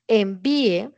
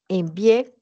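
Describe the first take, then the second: First: The stress falls on the second syllable. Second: The stress falls on the last syllable. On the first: It is a request to send something. "con el acento en la I" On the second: The sending already happened. "con tilde en la E"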